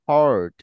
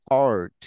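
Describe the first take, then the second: The two takes are said the same way.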